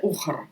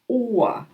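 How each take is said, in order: First: The final r is a clear consonant. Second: The final r becomes an a-like vowel. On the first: The speaker calls it wrong. "Тільки не читайте ухр" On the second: The speaker calls it right. "Р в кінці вона трохи якби переходить в таке а"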